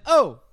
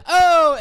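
First: A less heightened East Coast O; New Jersey-style O, moderately raised; East Coast accent. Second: High, loud East Coast O; big New York-area O; East Coast accent. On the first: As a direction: keep the East Coast O more contained. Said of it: "New Jersey". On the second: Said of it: "There's oh, and then there's oh". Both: Shown as a demonstration.

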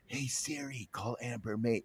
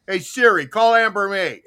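First: Very soft, lowered voice; hushed retelling of a yell. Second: Raised-voice order to a voice assistant; yelled phone command. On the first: Retold or imitated. Host retells his command without setting the phone off, hushed. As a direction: repeat the command under your breath. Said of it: "I won't say it again". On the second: Acted. Host shows how he tells Siri to phone Amber, called out loud. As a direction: call it out so the phone picks it up. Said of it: "but when I yelled out".

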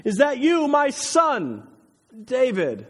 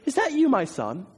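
First: High, loud, drawn call. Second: High-pitched mock quote, not shouted; incredulous requote. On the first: A narrator's reading. Saul recognizes David's voice and calls out to him. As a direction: call across the distance to someone half recognized. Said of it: "calls out to him". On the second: Preacher marvels at Saul's response, quoting it incredulously. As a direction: echo the question as if amazed by it.

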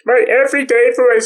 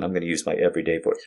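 First: High, loud goofy put-on voice; put-on silly voice. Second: Said in the usual way. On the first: Shown as a demonstration. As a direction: pitch way up into a silly fake voice. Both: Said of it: "I'm not gonna use this voice on 'em".

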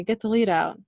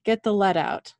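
First: "lead" misread to rhyme with "need"; misread pronunciation. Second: "lead" corrected to rhyme with "bed"; "lead" like the metal; corrected pronunciation. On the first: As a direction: say "lead" with a long ee. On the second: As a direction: say "lead" with a short e. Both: Real, not acted. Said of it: "That's what he says".

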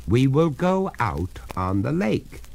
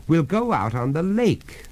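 First: Resolute, measured insistence; firm. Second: Said in the usual way. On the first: Acted. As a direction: insist on it, higher-pitched and deliberate. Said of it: "said the master firmly". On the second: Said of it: "starting up".

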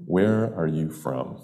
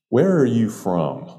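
First: Slow, pondering repeat of the question; considered. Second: Higher start, falling straight to the end; point-blank question. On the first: Shown as a demonstration. Storyteller inviting listeners to consider the question, slowly and thoughtfully. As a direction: weigh each word slowly, for consideration. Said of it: "Now consider that for a moment". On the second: Retold or imitated. Bartender questioning an unfamiliar customer, point blank. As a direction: ask it bluntly, as a direct challenge. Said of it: "she asked me point blank".

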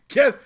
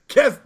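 Both takes have the same delivery.

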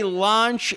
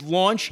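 First: "launch" as LAHNCH; slow LAHNCH for "launch"; sinful pronunciation. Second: "launch" as LAWNCH; slow LAWNCH for "launch"; proper pronunciation. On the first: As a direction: stretch launch with an open "ah". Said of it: "When you say launch". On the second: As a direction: stretch launch with a rounded "aw". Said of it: "and it's launch". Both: Shown as a demonstration.

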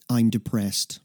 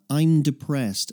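First: Said in the usual way. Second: "I'm depressed" said slowly, letting it sink in; slow, weighed. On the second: Shown as a demonstration. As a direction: let "I'm depressed" land slowly and heavily. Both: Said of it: "So think about that".

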